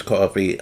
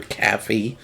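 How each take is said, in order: First: Said in the usual way. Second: "caffee" with a flat A as in cat; "caffee" as an outsider might say it; other people's pronunciation. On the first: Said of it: "my New Jersey accent to come out". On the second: Shown as a demonstration. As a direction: say "caffee", first vowel like cat. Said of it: "How do other people say coffee?".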